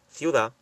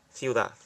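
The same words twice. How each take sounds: First: "Ciudad" ending on the vowel, final consonant dropped; singular "Ciudad" with a mute final T; silent final T. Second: "ciudad" as a plural, T mute and Z ending; silent T in plural. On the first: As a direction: say "Ciudad" without its last consonant. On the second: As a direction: say "ciudad" with a final th sound, no T. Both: Shown as a demonstration. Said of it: "no se pronuncia la T".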